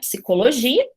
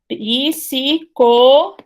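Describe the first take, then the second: First: The opening p and s are said together. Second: A vowel is inserted between p and s. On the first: The speaker has adapted to the consonant cluster. "Algumas pessoas se adaptam" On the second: The speaker avoids the consonant cluster. "Falante brasileiro vai fazer o seguinte"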